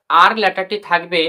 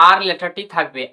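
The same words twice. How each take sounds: The two takes are said the same way.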